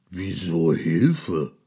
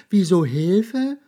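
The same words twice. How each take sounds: First: Lightly voiced slow monster; slow, puzzled monster; deep monster voice. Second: High, loud, slow squeaky question; mouse asking back. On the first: Monster asks the mouse why help, in a slow monster voice. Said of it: "mit seiner tiefen Stimme". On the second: Mouse throws the question back at the monster, high and loud. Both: A narrator's reading.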